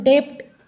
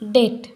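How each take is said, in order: First: The b sound is pronounced before the t. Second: The b is silent, with no b sound. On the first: The speaker calls it wrong. "हम इसका pronunciation डेप्ट ऐसा नहीं करते" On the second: The speaker calls it right. "इस बी का pronunciation नहीं होता है"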